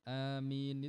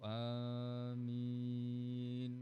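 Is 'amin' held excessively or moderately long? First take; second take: moderately; excessively. First: The word is lengthened only moderately. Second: The word is stretched out very long. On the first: This is enough. The speaker calls it right. "ini amin itu cukup" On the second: This is overdone. The speaker calls it wrong. "Enggak perlu amin gitu kan"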